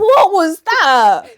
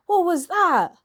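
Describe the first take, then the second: First: Loud, high, drawn-out disbelief; big theatrical outrage at what you heard; incredulous outburst. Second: Higher, louder disbelieving question; what on earth reaction; incredulous. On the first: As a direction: stretch it out slowly, almost shouting. Repeats it louder, mock outrage. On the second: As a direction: ask it baffled and appalled. Mock shock at the accent. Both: Real, not acted.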